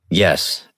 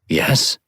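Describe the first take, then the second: First: The voice falls at the end, steady and firm. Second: The voice rises at the end, like a question.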